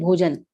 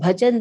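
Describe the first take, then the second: First: The first vowel is a rounded o sound. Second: The first vowel is an open a sound.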